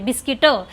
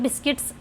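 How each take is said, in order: First: The word ends with a nasal vowel. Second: The word ends with a 'ts' sound. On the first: It sounds like an older mother-in-law talking. The speaker calls it right. "बिस्किटं असं बोलतात" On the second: It sounds like the speaker's own everyday speech. The speaker calls it wrong. "असं बिस्किट्स असं नाही बोलत आहे"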